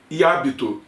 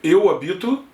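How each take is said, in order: First: Hábito stressed on the first syllable, HÁ-bi-to. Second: Habito stressed on the middle syllable, ha-BI-to. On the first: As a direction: say hábito with the stress at the start, like the noun. (hábito com a tônica no há, HÁ-bi-to) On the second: (habito com a tônica no bi, ha-BI-to) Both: Shown as a demonstration.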